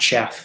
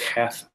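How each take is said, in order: First: It begins with a ch sound. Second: It begins with a rasp in the throat. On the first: The speaker calls it wrong. "it's not a ch sound ... it's not chef" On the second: The speaker calls it right. "that sound ... kind of towards the back of your throat"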